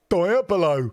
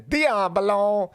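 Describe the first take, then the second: First: It is said with an English-sounding accent. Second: It is said with an Italian-sounding accent. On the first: "with a westernized, you know, it's an Anglo-Saxon accent" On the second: "which is more Italian"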